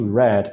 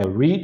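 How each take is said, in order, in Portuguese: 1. A vogal é curta, como em 'red'. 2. A vogal é longa, como em 'reed'. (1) "que nem a cor vermelho, é assim que fica no passado" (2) "read no presente"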